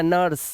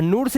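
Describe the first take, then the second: First: नर्स with a short "ur"; correct pronunciation. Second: नूर से as "noor-se" with long "oo"; wrong pronunciation. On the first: Teacher showing the rule, नर्स with an "a" sound. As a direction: say नर्स as "nurse". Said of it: "आ से पढ़ लो". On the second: Teacher warning pupils, नूर से misread with "oo". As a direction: say नूर से as one word, "noors". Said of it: "नूर से नहीं पढ़ना". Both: Shown as a demonstration.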